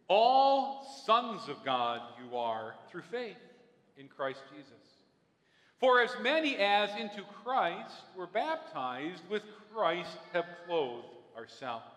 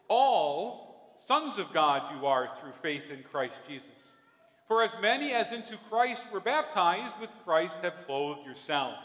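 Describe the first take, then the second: First: It is read slowly. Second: It is read at a normal pace.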